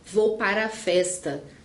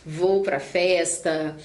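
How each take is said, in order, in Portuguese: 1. A palavra antes de festa tem duas sílabas plenas. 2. A palavra antes de festa é uma sílaba reduzida. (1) "A gente não fala para" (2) "a gente fala naturalmente... pra"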